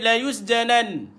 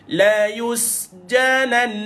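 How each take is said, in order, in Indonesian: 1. Bunyi sengau di akhir dipotong pendek. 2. Bunyi sengau di akhir dipanjangkan. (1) "seolah-olah kita tak matikan dia dalam keadaan sabdu. Kita matikan dia sukun" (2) "dia perlu dipanjangkan sikit dua harakat"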